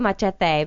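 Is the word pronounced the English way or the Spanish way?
Spanish. It is pronounced the Spanish way. "that's how they, you know, the Latinos pronounce it"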